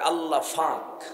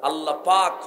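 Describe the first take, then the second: First: The second word starts with an f sound. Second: The second word starts with a p sound.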